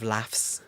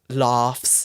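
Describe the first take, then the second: First: It is said in a northern English accent. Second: It is said in a southern English accent. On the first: "instead of" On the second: "But for you, I said"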